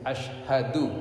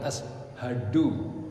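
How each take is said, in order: First: It uses an sh sound. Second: It uses a plain s sound. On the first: The speaker calls it right. "ash shin" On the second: The speaker calls it wrong. "bukan ashadu"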